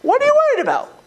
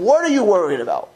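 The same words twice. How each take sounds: First: Much higher and louder, pressing; emphatic repeat. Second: Said in the usual way. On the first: Real, not acted. Rabbi pressing students on their fear, high and emphatic. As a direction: push the question home, high and pointed.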